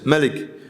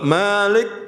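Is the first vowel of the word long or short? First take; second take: short; long. First: The first vowel is short. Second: The first vowel is long. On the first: It means king. "yang enggak panjang itu raja" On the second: It means owner. "yang memiliki, pemilik"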